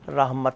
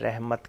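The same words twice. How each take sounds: First: The first vowel sounds like a in but. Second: The first vowel sounds like e in bed. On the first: The speaker calls it right. "रहमत लफ्ज़ है" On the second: The speaker calls it wrong. "रहमत कहते हैं"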